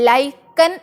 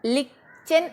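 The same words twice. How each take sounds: First: ലൈക്കൻ pronounced "lykan", with the long "ai" and a hard k; teacher demonstrating ലൈക്കൻ as "lykan"; reading one: ലൈക്കൻ. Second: ലിച്ചൻ read letter by letter as "lichan"; teacher demonstrating the other reading, ലിച്ചൻ as "lichan"; spelling reading: ലിച്ചൻ. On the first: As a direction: say ലൈക്കൻ as "lykan", like the English word. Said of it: "ലൈക്കൻ എന്ന് വായിക്കാം". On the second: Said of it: "ലിച്ചൻ എന്ന് വായിക്കാം". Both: Shown as a demonstration.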